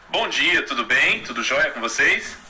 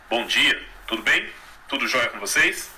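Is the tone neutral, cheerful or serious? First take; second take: neutral; serious. First: The tone is neutral. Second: The tone is serious and closed.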